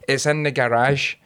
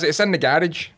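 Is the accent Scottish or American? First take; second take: American; Scottish. First: It is said in an American accent. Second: It is said in a Scottish accent.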